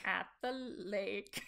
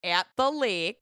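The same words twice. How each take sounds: First: "At the lake." slow, quiet, tentative Minnesota accent. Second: "at the lake" slow, drawn-out Minnesota vowels; Minnesota accent. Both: Shown as a demonstration. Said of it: "we'll break it down".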